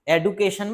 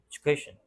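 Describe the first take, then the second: First: The second consonant is a plain 'd' sound. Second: The second consonant is a 'j' sound. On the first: The speaker calls it wrong. "एडुकेशन मत बोल देना" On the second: The speaker calls it right. "एजुकेशन ही बोलते हो"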